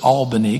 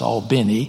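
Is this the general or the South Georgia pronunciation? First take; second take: general; South Georgia. First: It is said the general way, following the spelling. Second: It is said with a South Georgia pronunciation.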